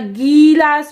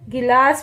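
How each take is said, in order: First: The first vowel is long. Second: The first vowel is short. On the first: The speaker calls it wrong. "ये तो गीलास लिखा है, तो ये तो रॉन्ग हो गया" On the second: The speaker calls it right. "गिलास बोलते हैं"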